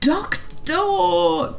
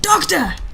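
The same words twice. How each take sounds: First: It is said without a roar. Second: It is roared loudly.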